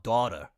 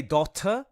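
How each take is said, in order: First: Said in the usual way. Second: "daughter" said with a crisp t and a lifted ending; inflected pronunciation. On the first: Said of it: "like, not daughter". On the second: Shown as a demonstration. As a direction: say "daughter" with the inflection, t pronounced clearly. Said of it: "you have to say it like that".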